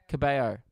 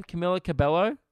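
First: Cabello. said "ka-BAY-oh" with no L sound, falling and settled; corrected pronunciation. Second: Cabello? said with a clear L sound, "ka-BELL-oh", rising like a question; unsure pronunciation. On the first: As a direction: fix it: "Cabello." as "ka-BAY-oh", the double L dropped. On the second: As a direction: try "Cabello?" as "ka-BELL-oh" with a doubtful lift at the end. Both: Shown as a demonstration.

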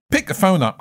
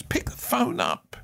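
First: Said in the usual way. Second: Breathy whisper, slower, much softer; whispered urging. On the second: Shown as a demonstration. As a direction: lean in and whisper it slowly.

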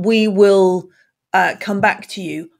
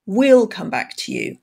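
First: Said in the usual way. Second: "We'll" said as one short syllable; contracted. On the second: Shown as a demonstration. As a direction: squeeze into "We'll". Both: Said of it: "So instead of".

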